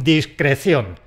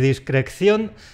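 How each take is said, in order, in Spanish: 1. Se pronuncia con un solo sonido c. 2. Se pronuncia con un sonido k extra. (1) "con una sola C" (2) "No quiero oír ni discreción"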